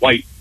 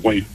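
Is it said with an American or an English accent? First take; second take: English; American. First: It is said in a Lincolnshire English accent. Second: It is said in a Boston American accent.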